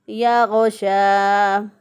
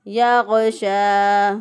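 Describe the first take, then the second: Both takes have the same delivery.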